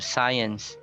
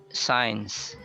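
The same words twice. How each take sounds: First: It is said as two syllables. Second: It is said as a single syllable.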